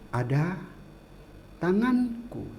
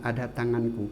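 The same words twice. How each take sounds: First: The pitch rises and falls with lively melody. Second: The pitch stays level with little melody. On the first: "itu kan ada iramanya ya" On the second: "Beda dengan"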